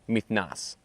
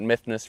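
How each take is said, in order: First: The name is said in its original-sounding way. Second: The name is said in a simplified, anglicized way. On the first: This is how the name is said in its own world. "in the world, it's probably pronounced more like Mythnas" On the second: This form is used for convenience. "I call it Mythnos for efficiency"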